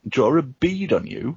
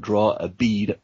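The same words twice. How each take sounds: First: "draw a bead on you" lifted higher in puzzlement; puzzled repeat. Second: Said in the usual way. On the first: Real, not acted. Reader asks friends about "draw a bead on you", puzzled and higher. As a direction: query "draw a bead on you" with raised pitch. Reader queries an unfamiliar phrase.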